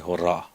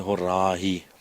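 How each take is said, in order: First: The word ends cleanly on the 'a' vowel. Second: The word ends with an added 'ee' sound. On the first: The speaker calls it right. "you just say hora" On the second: The speaker calls it wrong. "You don't truly uh, say it's actually horahi"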